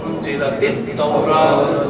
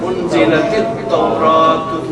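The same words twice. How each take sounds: No difference in how they are said.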